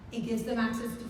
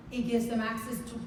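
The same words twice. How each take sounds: The two takes are said the same way.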